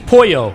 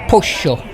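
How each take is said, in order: First: It is said with a Spain Spanish accent. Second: It is said with an Argentine accent.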